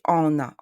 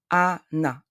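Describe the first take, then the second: First: "Anna" as on-na, nasalised first vowel; wrong nasal A. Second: "Anna" as a-na, open A then clear N; N pronounced. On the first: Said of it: "Anna is not correct". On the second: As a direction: separate "Anna" into A and NA, unnasalised. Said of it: "we have to pronounce N". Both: Shown as a demonstration.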